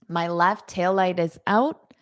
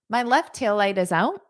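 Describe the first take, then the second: First: The sentence is said at a slower pace. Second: The sentence is said at a fast pace.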